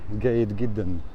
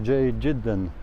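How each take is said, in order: First: It is said with an Egyptian accent. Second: It is said with a Jordanian accent. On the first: "Here in Egypt, they say" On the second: "In Jordan, they say"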